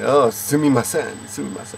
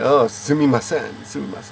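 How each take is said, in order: First: It is said in a sarcastic tone. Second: The same.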